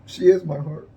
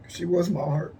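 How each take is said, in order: First: Is punched loud and firm; louder firm is, insisting she still is; stress on is. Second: Said in the usual way. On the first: Real, not acted. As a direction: hit the word is hard to correct yourself.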